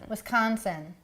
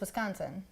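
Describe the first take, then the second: First: It has a non-Wisconsin accent, stressed hard 'con'. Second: It has a local Wisconsin accent, softer 'con'.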